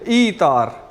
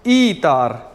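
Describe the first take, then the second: First: The 'er' merges into the syllable before it. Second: The 'er' merges into the syllable before it.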